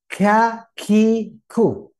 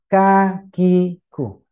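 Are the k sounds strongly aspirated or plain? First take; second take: aspirated; plain. First: The k sounds carry a forced puff of breath. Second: The k sounds are plain, without extra breath. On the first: The speaker calls it wrong. "Satu contoh yang dipaksa itu kan gini" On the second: The speaker calls it right. "Tidak. Biasa saja"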